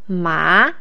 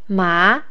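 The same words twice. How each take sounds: First: The pitch starts mid and rises high. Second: The pitch starts mid and rises high.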